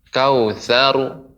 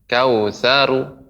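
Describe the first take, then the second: Both takes have the same delivery.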